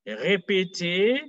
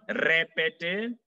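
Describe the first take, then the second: First: Very slow "Répéter" with a throaty R; French R. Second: "répéter" slow with a rolled tongue-tip R; wrong R. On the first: Teacher models the verb to repeat, French R in "Répéter". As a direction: draw out "Répéter", R from the back of the throat. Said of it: "not répéter". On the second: Teacher shows the mistake to avoid, front-R "répéter". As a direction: say "répéter" with a front R, not throaty. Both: Shown as a demonstration.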